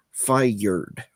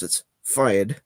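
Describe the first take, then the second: First: "fired" stretched into two syllables, fy-erd. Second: "fired" said as one syllable, fyerd. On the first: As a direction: split "fired" into two beats with a hard R. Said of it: "very strongly two syllable". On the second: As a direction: clip "fired" into a single beat. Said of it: "not as two syllables". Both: Shown as a demonstration.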